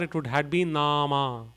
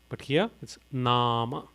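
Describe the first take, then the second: First: Both vowels are lengthened. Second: Only one vowel is lengthened. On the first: The speaker calls it wrong. "If both the A's had a bar" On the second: The speaker calls it right. "here it's Nama"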